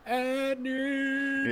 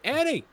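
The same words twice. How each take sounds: First: The name is stretched out in a long scream. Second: The name is said short in a plain call. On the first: The caller is overdoing it like a lunatic. The speaker calls it wrong. "and then draw it out, and she's like" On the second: A simple call to get someone's attention. The speaker calls it right. "Just say"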